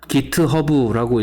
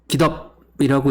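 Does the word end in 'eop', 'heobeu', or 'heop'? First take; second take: heobeu; eop. First: Three syllables, with an h and a final vowel. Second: Two syllables, with no h sound before the end. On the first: "깃허브라고 읽기도 하고요" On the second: "깃업이라고 읽기도 하고요"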